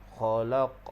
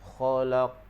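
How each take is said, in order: Both takes have the same delivery.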